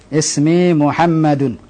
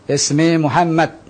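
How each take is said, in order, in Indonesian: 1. Nama itu berakhir dengan bunyi '-un'. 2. Nama itu berakhir pada konsonan 'd'. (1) "ana hidupkan semua harokat" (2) "dalam dialog tidak perlu antum hidupkan"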